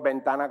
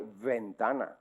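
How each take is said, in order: First: VENTANA said as bentana; everyday Spanish ventana with a b; plain b sound. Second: VENTANA with a buzzing fricative v; ventana, opening on an English-style v. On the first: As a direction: start ventana with both lips, a hard b. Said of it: "con una V como la copa a un pino". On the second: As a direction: say ventana with teeth on lip for the v. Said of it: "con la V fricativa". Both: Shown as a demonstration.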